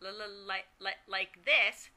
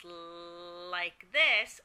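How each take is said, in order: First: Broken, repeated first sound on "like", then the word completes; stuttered repetition. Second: One drawn-out, unbroken L stuck at the start of "like"; stuttered prolongation. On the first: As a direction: repeat the opening L of "like" several times before getting out "like this". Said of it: "broken by repetitions". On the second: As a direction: hold the L of "like" very long before releasing "like this". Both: Shown as a demonstration.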